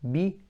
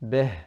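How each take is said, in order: First: The vowel is a full, pure i. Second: The vowel is open, mixed toward a. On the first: The speaker calls it right. "completing the kasra means it has to be similar to a ya" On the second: The speaker calls it wrong. "not lowering the bottom jaw enough"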